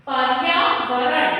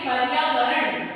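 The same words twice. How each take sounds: First: पर्यावरण said slowly, syllable by syllable, rising; slow careful demo. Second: पर्यावरण said slowly, ending in a fall; slow careful demo. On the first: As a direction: stretch पर्यावरण out for the class. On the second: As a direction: read पर्यावरण slowly and finish it firmly. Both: Shown as a demonstration. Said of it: "इसको हम क्या पढ़ेंगे?".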